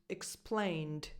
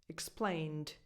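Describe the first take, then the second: Both takes have the same delivery.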